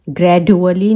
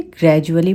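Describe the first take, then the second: First: "ग्रेजुअली" said wrongly with a hard retroflex d, /ɡrɛɖuəli/; "ग्रेजुअली" with the d kept hard, not softened to j; wrong d sound. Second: "ग्रेजुअली" said right, the d as a j, /ɡrɛd͡ʒuəli/; "ग्रेजुअली" with d and u merged into ju; correct j sound. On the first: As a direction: demo the wrong way, "ग्रेजुअली" with a d instead of j. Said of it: "ग्रेजुअली नहीं पढ़ते हम इसे". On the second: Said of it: "ग्रेजुअली पढ़ते हैं". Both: Shown as a demonstration.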